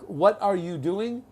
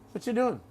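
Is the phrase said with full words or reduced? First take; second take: full; reduced. First: Every word is said fully and separately. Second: The words are run together with "are" dropped. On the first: The speaker calls it wrong. "No one says that" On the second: The speaker calls it right. "That's called fast English or connected speech"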